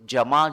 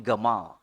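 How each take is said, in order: First: The name begins with a soft j sound. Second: The name begins with a hard g sound.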